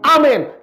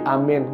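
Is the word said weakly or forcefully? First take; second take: forcefully; weakly. First: It is said forcefully, with strong energy. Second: It is said weakly, with little force. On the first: The speaker calls it right. "harus dengan intonasi" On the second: The speaker calls it wrong. "jangan amin"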